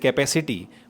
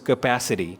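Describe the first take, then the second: First: It is said with an Indian English accent. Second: It is said with an American English accent. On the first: "in Indian English we say capacity" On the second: "in American it becomes capacity"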